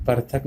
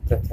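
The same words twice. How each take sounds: First: पृथक said par-thak; wrong pronunciation. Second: Said in the usual way. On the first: Shown as a demonstration. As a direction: shift the r behind the vowel in पृथक. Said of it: "नहीं कहना". (पृथक को पर-थक बोलें) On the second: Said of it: "कहना है".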